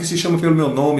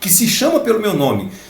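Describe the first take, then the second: First: It is read quickly, running on without emphasis. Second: It is read slowly, with strong emphasis.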